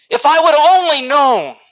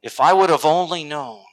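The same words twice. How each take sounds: First: High, loud cry of regret; anguished regret. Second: Said in the usual way. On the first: Acted. Person standing before the Lord, crying out in regret. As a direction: cry it out, much too late.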